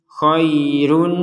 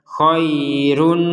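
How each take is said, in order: The two takes are said the same way.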